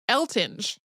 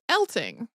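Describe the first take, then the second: First: The name ends with a soft G sound. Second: The name ends with a hard G sound.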